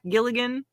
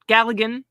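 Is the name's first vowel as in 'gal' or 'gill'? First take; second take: gill; gal. First: The first vowel sounds like the one in 'gill'. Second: The first vowel sounds like the one in 'gal'. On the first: The speaker calls it wrong. "not Gilligan" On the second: The speaker calls it right.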